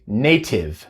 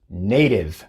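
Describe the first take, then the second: First: The t is a clear, crisp t sound. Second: The t is a soft flap like d. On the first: The speaker calls it wrong. "No se dice native" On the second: The speaker calls it right. "se dice native"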